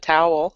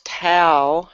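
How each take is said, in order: First: The word is said in a Northern accent. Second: The word is said in a Southern accent. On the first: This is the usual way from Michigan. "instead of towel" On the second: This is how the Kentucky grandmother says it. "my grandma says towel"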